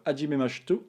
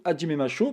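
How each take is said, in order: First: "Hajime Masho" slurred and clipped short, the final syllables swallowed; fumbled Japanese reading. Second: "Hajime Masho" said cleanly with every syllable, a-zhee-meh ma-sho; careful correction. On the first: Teacher misreading a quiz button to viewers, fumbled. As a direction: trip over "Hajime Masho", cutting it off mid-word. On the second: Teacher correcting himself for viewers, careful clear Japanese. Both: Real, not acted.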